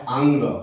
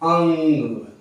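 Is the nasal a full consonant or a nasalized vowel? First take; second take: full consonant; nasalized vowel. First: The nasal is a full consonant sound. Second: The nasal only colors the vowel itself. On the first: "अनुस्वार में आपका आता है" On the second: "अनुनासिक में आता है"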